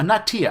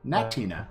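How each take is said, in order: First: The name ends without an n sound before the last vowel. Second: The name has an n sound before the last vowel. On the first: The speaker calls it wrong. "I like Natia" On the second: The speaker calls it right. "but the ends in there, Natina, like Cantina"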